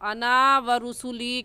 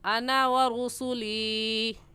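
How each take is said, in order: First: The vowel at the end of ana is stretched long. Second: The vowel at the end of ana is kept short. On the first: The speaker calls it wrong. "कहना गलत है" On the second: The speaker calls it right. "अना को नहीं खींचेंगे"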